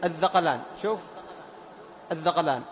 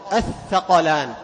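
First: الذقلان with the ث mistakenly voiced as ذ; wrong dh sound. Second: Slow الثقلان with a whispered ث; correct tha. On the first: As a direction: say الذقلان, the error, dh for th. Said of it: "تقرب من الذال". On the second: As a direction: say الثقلان, th kept unvoiced. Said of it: "المحافظة على همس الثاء". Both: Shown as a demonstration.

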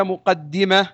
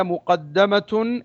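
First: مقدمة said as muqaddima, with an "i" after the doubled d; active-participle مقدمة, dal voweled with kasra. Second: مقدمة said as muqaddama, with an "a" after the doubled d; passive-participle مقدمة, dal voweled with fatha. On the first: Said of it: "وكسرها". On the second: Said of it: "فبفتحها". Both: Shown as a demonstration.

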